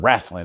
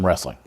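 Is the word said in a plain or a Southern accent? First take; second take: Southern; plain. First: It is said with a local Southern pronunciation. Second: It is said with a plain, standard pronunciation.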